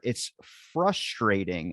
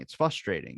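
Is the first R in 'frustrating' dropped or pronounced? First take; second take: pronounced; dropped. First: The first R in the word is pronounced. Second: The first R in the word is dropped. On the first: The speaker calls it right. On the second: The speaker calls it wrong.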